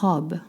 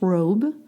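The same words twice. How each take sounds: First: The vowel is short, like in 'rob'. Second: The vowel is a long English 'oh' glide. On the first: The speaker calls it right. "You want to pronounce like the verb, to rob" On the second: The speaker calls it wrong. "You don't pronounce robe"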